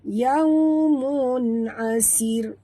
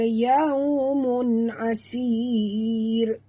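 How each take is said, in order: First: The last vowel is kept short. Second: The last vowel is drawn out long. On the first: The speaker calls it right. "tak boleh panjang" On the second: The speaker calls it wrong. "Jangan baca yaumun asir"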